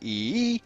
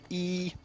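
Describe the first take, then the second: First: The pitch starts low, then goes up. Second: The pitch stays level and steady throughout. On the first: "the tick, where you start low and then you go up" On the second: "There's a flat one, which is like E, which is where it's just one solid sound"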